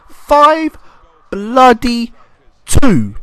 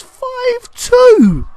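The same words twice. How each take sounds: First: Five, bloody, two: each word loud, with pauses between; loud, word-by-word disbelief on "Five bloody two"; emphatic amazement. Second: High, loud cry of amazement; big, high-pitched exclamation; amazed shout. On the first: Repeats the scoreline for emphasis. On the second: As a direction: shout the scoreline in sheer astonishment. Marvels at a real scoreline. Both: Real, not acted.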